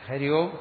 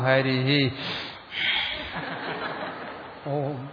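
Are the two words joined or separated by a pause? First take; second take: joined; pause. First: The two words are joined without a pause. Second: A pause separates the two words. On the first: The speaker calls it wrong. "അങ്ങനെ പറയാൻ പറ്റില്ല" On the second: The speaker calls it right. "ശ്വാസം വിടണം, ഹരിഹി ഓം യതി, നിർത്തൽ അവിടെ വരണം"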